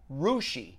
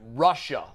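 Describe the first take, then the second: First: The name ends with an 'ee' sound. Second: The name ends with an 'uh' sound. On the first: The speaker calls it right. "It's actually pronounced Rushi" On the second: The speaker calls it wrong. "I pronounced it Russia"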